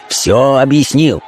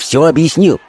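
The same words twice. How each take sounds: First: «Всё объяснил» said slowly, word by word; emphatic repetition. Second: Said in the usual way. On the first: A narrator's reading. Caller making sure the message is understood, «Всё объяснил» slow and emphatic.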